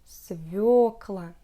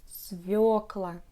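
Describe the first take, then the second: No difference in how they are said.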